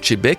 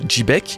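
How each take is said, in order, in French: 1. Le nom commence par un son 'sh'. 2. Le nom commence par un son 'j'. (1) "je le prononce peut-être pas très bien en l'appelant Chebek" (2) "c'est plus Jibek"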